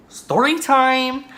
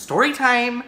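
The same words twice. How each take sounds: First: Very high, loud and stretched catchphrase; playful drawn-out announcement. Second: High, loud catchphrase call; playful announcement. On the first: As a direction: hold the last word long and high. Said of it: "Like, just say it". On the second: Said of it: "I just like saying that". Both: Pretend.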